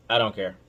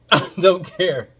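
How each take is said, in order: First: Said in the usual way. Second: Louder and slower with a laugh; laughing defiance. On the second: Real, not acted. Host brushing off critics while laughing. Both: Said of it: "I'm emotional".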